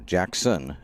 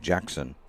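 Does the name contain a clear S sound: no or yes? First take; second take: yes; no. First: The name is said with an S sound. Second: The name is said without an S sound. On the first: The speaker calls it wrong. "You want to say that with an S" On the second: The speaker calls it right. "It's Jackson"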